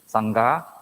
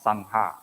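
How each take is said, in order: First: A 'g' sound is heard before the 'ha'. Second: No 'g' sound is heard before the 'ha'. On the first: The speaker calls it right. "it should be pronounced as Sangha" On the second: The speaker calls it wrong. "not Sangha"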